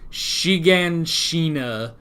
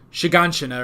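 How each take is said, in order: First: The name is said at a slower pace. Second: The name is said very quickly. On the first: "I think I was saying, like" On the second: "they say it so fast"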